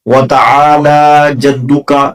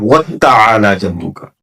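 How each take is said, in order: First: The t sound after 'wa' is single. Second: The t sound after 'wa' is doubled. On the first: The speaker calls it right. "सही है" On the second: The speaker calls it wrong. "गलत क्या है"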